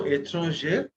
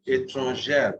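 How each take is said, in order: First: ÉTRANGER with a closed "ay" in the last syllable; masculine form. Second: ÉTRANGÈRE with an open "air" ending, pitched lower; open grave E. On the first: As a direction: say ÉTRANGER with a tight final E. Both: Shown as a demonstration. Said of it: "Grave accent is A".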